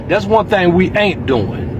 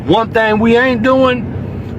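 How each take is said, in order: First: Said in the usual way. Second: Each word laid down slowly and firmly, the weight landing on "doing"; slow emphatic statement. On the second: Shown as a demonstration. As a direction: spell it out slow, as a hard point of pride.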